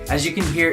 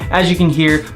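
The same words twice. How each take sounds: First: The voice sounds thin, distant and echoey. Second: The voice sounds deeper, richer and less echoey. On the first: The speaker calls it wrong. "recorded straight from the camera. As you can hear, it doesn't sound as great. a little more echoey" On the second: The speaker calls it right. "my voice sounds a little deeper, a little richer, and there's not as much echo"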